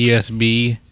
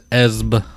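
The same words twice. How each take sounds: First: "E S B" letter by letter; name each letter separately, "E S B"; spelled out. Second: "Esb" as one syllable; said as a word. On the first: Host explains the beer's name, "E S B" said as letters. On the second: Host jokingly names the beer, "Esb" said as one word. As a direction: run the letters together into the word "Esb". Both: Shown as a demonstration. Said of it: "if you don't know what that is".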